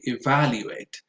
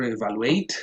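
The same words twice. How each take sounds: First: Evaluate with VAL stressed; safe pronunciation. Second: Evaluate with the final ATE stressed; mistaken end stress. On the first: Giving learners the safe option, evaluate stressed on VAL. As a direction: lean on the second syllable, VAL, in evaluate. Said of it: "you would always be safe". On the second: Warning learners what never to say, evaluate stressed on ATE. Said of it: "Probably never". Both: Shown as a demonstration.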